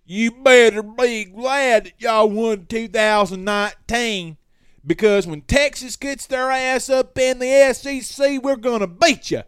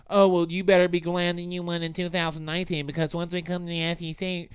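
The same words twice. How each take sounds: First: Mocking Texas fan taunting in the DMs, high and loud; cocky rival fan impression. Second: Lightly mocking rival fan; a first, mild take at a cocky fan. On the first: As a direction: ham up the smug trash talk, stretching it out. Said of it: "This is how they talk". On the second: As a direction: rival fan taunt, barely voiced. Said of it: "That's not, actually not how they talk".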